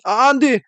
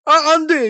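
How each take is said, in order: First: High-pitched cry of refusal; panicked protest. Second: High, dramatic possessed plea; hammed-up actor's cry of refusal; Lee Byung-hun impression. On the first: Acted. Protagonist whose test paper gets snatched, panicked protest. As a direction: blurt out an alarmed no. 주인공이 시험지를 뺏기며 외침. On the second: Storyteller channels an actor for the protagonist, hammed-up impression. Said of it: "이병헌이 빙의가 돼 가지고".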